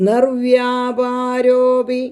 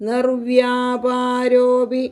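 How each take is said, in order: The two takes are said the same way.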